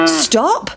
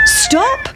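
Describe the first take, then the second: First: A lightly voiced cow, barely raised; cow shouting. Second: Very high, piercing rooster call; cockerel crying stop. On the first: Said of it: "shouted the cow". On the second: Cockerel calling the pancake down the hill, very high cry. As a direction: crow it out like a cockerel. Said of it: "said the cock". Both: A narrator's reading.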